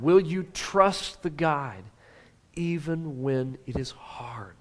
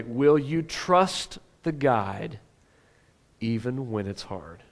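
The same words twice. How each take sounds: First: Slow, fading to a whisper on the end; hushed, urgent whisper; whispered question. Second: Slow question. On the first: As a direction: lean in and whisper the last words. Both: Shown as a demonstration. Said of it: "Oh, this is important".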